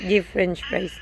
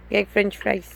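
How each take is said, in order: First: Put-on correcting the child to give. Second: Put-on gai said the child's way, like guy; gai french fries as a toddler would say it; baby-talk gai. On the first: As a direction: give said properly with a clear v. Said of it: "Gai french fries". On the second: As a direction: mimic the toddler's gai for give. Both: Shown as a demonstration.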